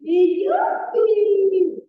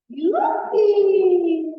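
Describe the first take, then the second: First: Drawn-out, loud gleeful whoop; slow yippee. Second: Loud gleeful whoop; yippee shout. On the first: Storyteller to refugee kids, a slow drawn-out whoop. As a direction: stretch the cheer out slowly. Storyteller repeats slide cheer. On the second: Storyteller for the kids, a loud gleeful whoop. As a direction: cheer it like a kid sliding down. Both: Acted.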